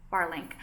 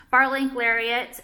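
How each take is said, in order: First: Said in the usual way. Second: Bar link spoken slowly and louder; careful naming. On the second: Shown as a demonstration. Naming her necklace for viewers, slowly, Bar link with weight. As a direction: spell out the name Bar link deliberately.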